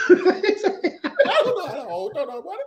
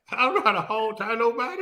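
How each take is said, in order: First: High quote. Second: Laughing quote. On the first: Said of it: "repeating the quote". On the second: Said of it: "quoting the line". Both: Retold or imitated.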